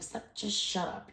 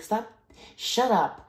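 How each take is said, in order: First: Unvoiced, softer hushed version; whispered mock shut-up; whispered retort. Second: Higher, louder retort; imitated angry shut-up; mock snap. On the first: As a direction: hiss it under your breath. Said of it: "It's like". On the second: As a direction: bark it back at her. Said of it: "it's like".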